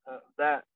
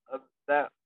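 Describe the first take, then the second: No difference in how they are said.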